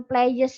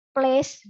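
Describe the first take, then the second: First: "players" said as two syllables, "play-yes"; wrong pronunciation. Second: Said in the usual way. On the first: Shown as a demonstration. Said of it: "Nah, bukan players misal". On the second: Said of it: "bukan players misal".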